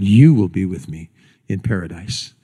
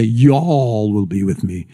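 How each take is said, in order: First: "You" punched as the one person meant; strong "You", the rest falling away; stress on You. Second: "Y'all" stretched out long; slow, lingering weight on "Y'all"; stress on Y'all. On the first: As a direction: lean hard on "You", then drop lower. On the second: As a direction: draw out "Y'all" to take in everyone. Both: Shown as a demonstration. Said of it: "He didn't say".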